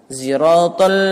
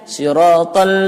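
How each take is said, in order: First: The word begins with a z sound. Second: The word begins with an s sound.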